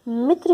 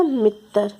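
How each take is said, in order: First: Said in the usual way. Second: मित्र said as "mit-tar"; mispronounced मित्र. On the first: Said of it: "अलग-अलग हो जाता है". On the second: Shown as a demonstration. Teacher contrasting written and spoken forms, मित्र mispronounced as "mittar". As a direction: add a vowel so मित्र ends in "tar". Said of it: "pronounce करने में अलग-अलग हो जाता है".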